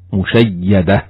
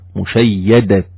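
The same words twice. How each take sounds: First: The word ends with an h sound. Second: The word ends with a t sound. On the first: The reader stops on the word. "وفي الوقف هاء" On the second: The reader connects the word to what follows. "ستسمع صوت التاء"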